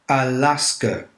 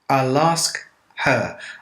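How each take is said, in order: First: Her is reduced and blends into ask. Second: Her is said in full with its h sound.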